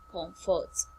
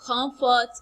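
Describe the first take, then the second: First: "comfort" dropped low and soft; low take of COMFORT. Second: "Comfort" pitched up and firmly voiced; high take of COMFORT. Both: Shown as a demonstration. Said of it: "High, then low".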